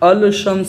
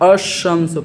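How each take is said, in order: First: The l sound of the article is pronounced. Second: The l sound merges into the following s. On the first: The speaker calls it wrong. "अल शम्स नहीं पढ़ूंगा" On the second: The speaker calls it right. "अशम्स पढ़ूंगा"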